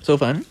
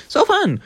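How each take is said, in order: First: Said in the usual way. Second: So fun, said much higher in fake delight; mock cheerful. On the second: Shown as a demonstration. Telling friends about the scary room, sarcastic high glee.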